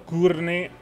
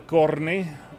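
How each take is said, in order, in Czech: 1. První samohláska zní jako 'oo'. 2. První samohláska zní jako 'o'. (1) "Nečte se to kurny" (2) "ale korny"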